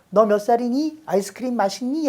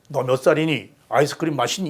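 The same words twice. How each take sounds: First: It is said in a high-pitched voice. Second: It is said in a low-pitched voice.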